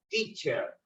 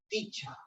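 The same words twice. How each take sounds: First: It is said in an American accent. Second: It is said in a British accent. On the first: "En el inglés norteamericano, yo digo teacher" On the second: "cuando me voy al inglés británico, la terminación es teacher"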